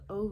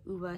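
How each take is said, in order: First: The name is said like 'Ove'. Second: The name is said like 'Uva'. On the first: This is how some people say it. "some people say it" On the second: This is how the audiobook says it. "they pronounced it Uva, so that's what I'm going with"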